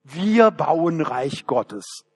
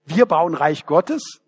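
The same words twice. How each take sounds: First: Very slow, solemn "Wir bauen Reich Gottes" with a falling end on "wir"; mock humble piety. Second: "Wir bauen Reich Gottes?" echoed with a disbelieving rise on "wir"; scornful echo, rising in disbelief; incredulous question. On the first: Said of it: "wir legen das Ganze demütig an". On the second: Real, not acted. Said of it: "Na, so eine Arroganz".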